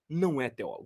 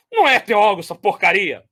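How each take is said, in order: First: Softer, clipped dismissal; hushed imitation of his scorn; quiet mock contempt. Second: A touch louder, scornful jab; lightly hammed-up scorn; mock contempt. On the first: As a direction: drop it quietly but dismissively. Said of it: "olha como é que ele falou". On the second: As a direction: spit out the dismissal with mild disdain. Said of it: "Só faltou ele falar".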